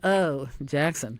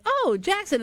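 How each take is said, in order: First: It sounds disparaging and dismissive. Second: It sounds admiring and enthusiastic.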